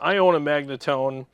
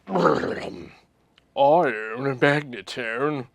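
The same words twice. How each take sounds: First: It is read in a plain, neutral voice. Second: It is read in an arrogant, haughty voice.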